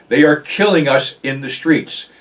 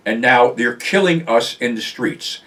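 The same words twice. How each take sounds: First: Pressing the point home on "killing"; repeated with emphasis. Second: Said in the usual way. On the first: Real, not acted. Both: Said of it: "Let me repeat that".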